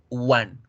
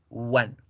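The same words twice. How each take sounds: First: The word begins with a pure u sound. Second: The same.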